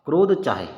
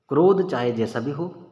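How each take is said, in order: First: There is a pause right after chaahe. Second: There is no pause before ho.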